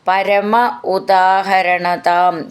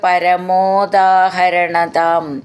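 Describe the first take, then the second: First: The two words are said separately. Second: The two words are merged into one.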